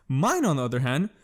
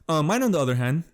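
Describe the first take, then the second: First: Words broken by a burp; burping mid-phrase. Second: Said in the usual way. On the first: Real, not acted. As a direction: say Mine, on the other hand through a burp. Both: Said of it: "just fucking burped again".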